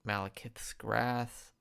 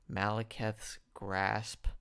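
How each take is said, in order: First: Grasp slurred as grath through a retainer; retainer lisp. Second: Grasp said slowly and clearly with a crisp s; careful correction. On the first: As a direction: lisp the word grasp, tongue blocked by a retainer. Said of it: "I have my retainer in". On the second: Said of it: "Sorry, I'm really stumbling over my words". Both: Real, not acted.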